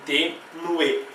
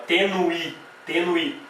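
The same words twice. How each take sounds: First: Slow "tenue" ending on a full E; clear final E. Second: "tenui" with a final I for E; E turned to I. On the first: Teacher giving the form people really say, clear final E. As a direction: say "tenue" slowly, keeping the E. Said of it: "A gente fala". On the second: Teacher showing what one would not say, E turned to I. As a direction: end "tenui" on a clear I sound. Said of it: "Não vou falar". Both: Shown as a demonstration.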